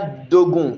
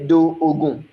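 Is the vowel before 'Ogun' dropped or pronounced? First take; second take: dropped; pronounced. First: The first vowel is dropped and joined to Ogun. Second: The first vowel is pronounced separately before Ogun. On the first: The speaker calls it right. "the first vowel is going to disappear for the second vowel" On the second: The speaker calls it wrong. "You won't say do Ogun"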